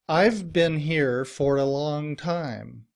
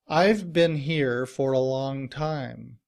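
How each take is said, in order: No difference in how they are said.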